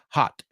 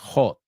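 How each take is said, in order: First: The vowel is a short open 'ah'. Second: The vowel is a long rounded 'oh'. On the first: The speaker calls it right. "it's ah... Pero no es larga, es cortito" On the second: The speaker calls it wrong. "dime que no dices hot, ho, o. It's not an O"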